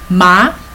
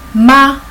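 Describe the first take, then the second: First: The pitch rises from mid to high. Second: The pitch stays high and level. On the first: It means hemp or trouble. "The second one is ma" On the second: It means mother. "With the first tone, we pronounce as ma, as mother"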